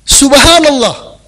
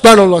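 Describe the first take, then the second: First: The phrase is said at a calm, clear pace. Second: The phrase is said quickly, with blurred sounds.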